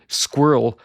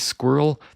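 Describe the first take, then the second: First: The word is said with one syllable. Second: The word is said with two syllables. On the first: "where it's one syllable and ends in earl" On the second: "it's first syllable squir, second syllable l"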